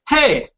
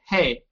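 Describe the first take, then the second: First: It is said loud, like a yell. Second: It is said flat and plain.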